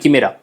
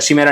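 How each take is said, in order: First: The word begins with a 'k' sound. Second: The word begins with a 'sh' sound. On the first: The speaker calls it right. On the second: The speaker calls it wrong. "शिमेरा नहीं"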